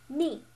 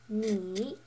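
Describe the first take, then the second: First: The pitch falls sharply from high to low. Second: The pitch dips low, then comes up. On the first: "the fourth tone, uh, the slanted down one" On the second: "The third tone is the check mark"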